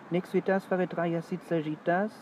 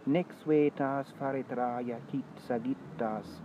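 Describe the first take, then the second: First: Spoken with a French accent and no vowel lengths. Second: Long and short vowels and consonants are clearly distinguished. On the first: It is how a French speaker would read it. "Wenn das ein Franzose gelesen hätte ... Da hört man gar keine Metrik mehr" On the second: It is how Romans of the first century BC spoke it. "Im ersten Jahrhundert vor Christus hätte sich der Text ganz anders angehört"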